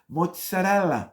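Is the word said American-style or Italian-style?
Italian. The word is said in full Italian style. The speaker calls it right. "pronounce it the way it's spelled"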